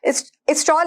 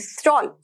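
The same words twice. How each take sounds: First: An extra vowel comes before the s sound. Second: The word begins directly with the s sound. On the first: The speaker calls it wrong. "स्टॉल नहीं" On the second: The speaker calls it right. "स्टॉल मतलब shawl"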